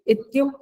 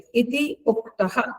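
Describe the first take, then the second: First: The two words merge into one joined word. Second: The two words are kept apart as separate words. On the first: "ये इत्युक्त है संधि के साथ है" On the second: "ये संधि विच्छेद करके बोला जाता है"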